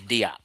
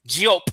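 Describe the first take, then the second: First: The name is said with an English-style pronunciation. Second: The name is said with a French-style pronunciation. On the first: The speaker is being plain and unpretentious. "I'm not French. I say Diop" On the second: The speaker is being fancy or affected. "if you want to be cute and shit"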